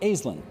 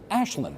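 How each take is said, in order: First: The name is said with a plain 's' sound. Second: The name is said with a 'sh' sound. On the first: The speaker calls it wrong. "you do not pronounce it Aislinn" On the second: The speaker calls it right. "pronounce it Ashlyn"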